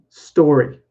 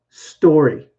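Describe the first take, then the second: No difference in how they are said.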